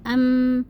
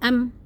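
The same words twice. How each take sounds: First: The final m flows out briefly before stopping. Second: The final m is cut off and held back. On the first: The speaker calls it right. "Jadi dialirkan dulu sedikit aja" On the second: The speaker calls it wrong. "Jadi yang salah tuh gini"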